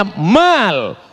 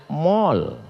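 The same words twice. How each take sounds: First: "mal" with a long open a. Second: "mall" with a rounded o, like "mol"; lafal Barat. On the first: ("mal" dengan a panjang) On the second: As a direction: say "mall" the Western way, lower and rounded. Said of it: "Orang Barat menyebutnya mall". ("mall" diucapkan "mol") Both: Shown as a demonstration.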